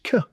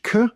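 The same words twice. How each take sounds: First: "K" as kuh, pitched up; higher-pitched K. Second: "K" as a low "kuh" sound; lower-pitched K. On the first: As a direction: say "K" as a high "kuh" sound. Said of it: "different to a higher pitch K". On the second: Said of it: "it's a lower pitch K". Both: Shown as a demonstration.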